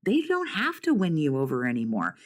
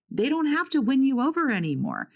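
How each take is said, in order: First: Said in the usual way. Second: Higher, pressing the point home on the repeat; emphatic repeat. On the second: Real, not acted. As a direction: drive it home the second time, pitched up. Emphatic repeat of line 120.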